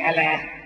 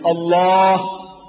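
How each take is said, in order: First: Allah is pronounced the English way. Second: Allah is pronounced the Arabic way. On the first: The speaker calls it wrong. "not Allah" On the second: The speaker calls it right. "But my language, I want you to try to pronounce as you ought to pronounce"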